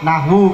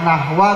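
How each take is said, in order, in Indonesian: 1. Kata itu berakhir dengan vokal 'u'. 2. Kata itu berakhir dengan vokal 'a'.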